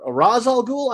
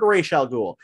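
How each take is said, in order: First: Ra's al Ghul said RAHZ al GOOL. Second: Ra's al Ghul said RAYSH al GOOL; "ay" vowel and sh in Ra's. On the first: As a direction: open "ah" and a z in Ra's. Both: Shown as a demonstration. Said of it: "figure out these pronunciations".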